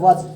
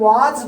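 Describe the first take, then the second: First: The vowel is a short, reduced 'uh' sound. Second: The vowel is a full, long 'aa' sound. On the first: "British style में वज बोला जाता है" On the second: "ये हम वाज बोलते हैं"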